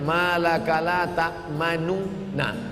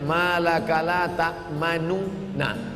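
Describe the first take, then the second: First: The two nun sounds are pronounced as separate syllables. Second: The same.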